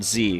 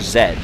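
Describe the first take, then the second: First: The letter is said as zee. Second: The letter is said as zed.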